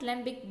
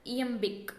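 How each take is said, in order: First: "lembic" said with a wrong L at the start; "lembic", beginning like "lemon" in place of "iambic"; misread iambic. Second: "iambic" begun with an I vowel, no L; "iambic" opening on I, correcting an L misreading; corrected pronunciation. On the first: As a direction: misread it as "lembic", opening on an L sound. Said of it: "It is not lembic but". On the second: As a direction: say "iambic" as ee-em-bik, starting on the vowel. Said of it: "It is I". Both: Shown as a demonstration.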